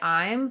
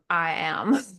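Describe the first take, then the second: First: It is said as one contracted syllable. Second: It is said as two full separate words. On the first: The speaker calls it wrong. "Don't say I'm" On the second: The speaker calls it right.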